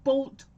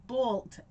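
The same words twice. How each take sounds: First: "Bolt" said loud and higher, with a crisp final t; emphatic correction. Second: Said in the usual way. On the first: Shown as a demonstration. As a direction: punch "Bolt" loudly to clear up the word. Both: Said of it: "Not butthole".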